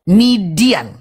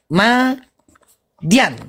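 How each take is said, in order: First: The first vowel sounds like 'i'. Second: The first vowel sounds like 'a'. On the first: The speaker calls it wrong. "itu cara nyebutnya salah. Bukan Midian" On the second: The speaker calls it right. "Yang betul menyebutnya adalah Madian"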